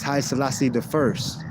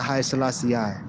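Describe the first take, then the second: First: The ending is said as 'the first'. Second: The ending is said as the letter I. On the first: The speaker calls it right. "It's Haile Selassie the first" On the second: The speaker calls it wrong. "it's not Haile Selassie I"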